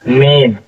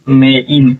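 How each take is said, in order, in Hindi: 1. स्वर एक ही अक्षर में मिल जाते हैं। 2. स्वर दो अलग अक्षरों में बँटे हुए हैं।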